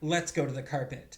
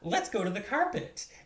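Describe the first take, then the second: First: It is said in an urgent, serious tone. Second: It is said in a friendly, smiling tone. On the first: Something important is happening and you must come now. "you need to come with me right now. There's an emergency" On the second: We are going to go play together. "and grab their hand and smile"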